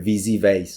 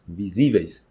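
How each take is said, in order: First: The syllable before the ending has no stress peak. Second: The syllable before the ending has a strong stress peak. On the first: The speaker calls it wrong. "tá errado, não tem nada a ver" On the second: The speaker calls it right. "tem esse pico no, na letra que vem antes"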